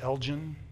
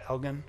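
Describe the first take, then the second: First: It is pronounced the speaker's own home way. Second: It is pronounced the way local people say it. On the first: This is how outsiders say the name. "which we would pronounce Elgin" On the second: This is how the locals say the name. "They pronounce it Elgin"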